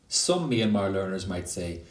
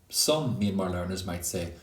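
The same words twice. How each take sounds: Both takes have the same delivery.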